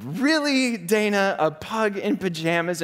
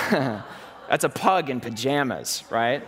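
First: Much higher, disbelieving question; can't believe she's crying over this; husband baffled by his crying wife; incredulous. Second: Slow, amused, half laughing; laughing at the pug photo; laughing reveal. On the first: Retold or imitated. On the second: Real, not acted. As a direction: savour the silly picture.

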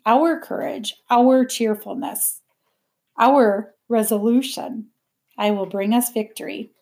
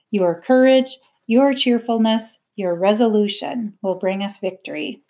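First: Slowed, deliberate OUR at the head of each phrase; stress on OUR. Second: Measured poster slogan read aloud, each YOUR phrase set apart. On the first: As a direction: lean on "our" each time to correct the slogan. Corrects the poster's your to our. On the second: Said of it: "Miss Smith read it aloud". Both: A narrator's reading.

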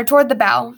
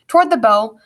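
First: "bow" said to rhyme with "cow"; corrected BOW. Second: "bow" said to rhyme with "go"; mispronounced BOW. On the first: Narrator fixing the misread, "bow" rhyming with "cow". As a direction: say "bow" like taking a bow, "bau". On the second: Narrator misreading the ship's bow, "bow" as "boh". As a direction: say "bow" like the ribbon kind, "boh". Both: Real, not acted. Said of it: "or toward the bow".

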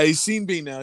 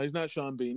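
First: Sean as SEEN, rhyming with Bean; louder, Sean pronounced SEEN; joke name rhyme. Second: Sean as SHAWN, dropped softer; SH sound starting Sean; quiet SHAWN for Sean, not rhyming with Bean; usual Sean. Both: Shown as a demonstration.

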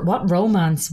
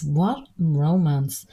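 First: Said in the usual way. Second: What drawn out slowly, then romance; slow, pointed What before romance; stress on What. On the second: Real, not acted. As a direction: lean on What and stretch it out. Repeats it slowly, dismissively.

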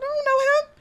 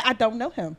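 First: High, innocent denial; high pretend-innocent I don't know him; mock denial. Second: Said in the usual way. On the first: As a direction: play dumb in a high voice. Acting her denial to friends.

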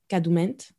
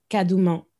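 First: Kadoument with the final "nt" sounded; alternative pronunciation. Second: Kadouman with an open final "ah", no sounded t; unsure pronunciation. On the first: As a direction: close "kadoument" on an audible n and t. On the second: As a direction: end "kadouman" on an open vowel, French-like. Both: Shown as a demonstration. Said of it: "I don't know how you pronounce that".

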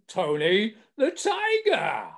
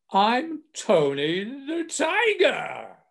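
First: Slow, drawn-out mascot boom, pitched up; booming cartoon tiger voice; booming Tony the Tiger. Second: High, very slow, drawn-out cartoon tiger boom; slow booming mascot voice; booming Tony the Tiger. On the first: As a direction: announce the name like the TV tiger. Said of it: "And it was the voice". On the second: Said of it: "in this booming voice".

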